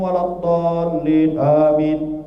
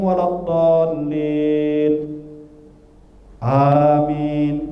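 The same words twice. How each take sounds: First: Amin follows almost without any pause. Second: A long pause comes before amin. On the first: The imam has not learned properly. "Jangan terlalu cepat nyambung" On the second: It confuses the imam. "Atau lama"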